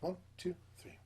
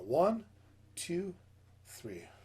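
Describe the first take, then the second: First: It is counted at a fast tempo. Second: It is counted at a slow tempo.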